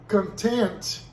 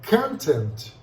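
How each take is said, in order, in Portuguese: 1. A tonicidade está na segunda sílaba. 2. A tonicidade está na primeira sílaba.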